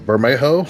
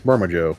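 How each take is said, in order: First: The middle consonant is said like an English h. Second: The middle consonant is said like an English j. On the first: The speaker calls it right. "I think it's pronounced like an H" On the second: The speaker calls it wrong. "I don't think it's pronounced like a J"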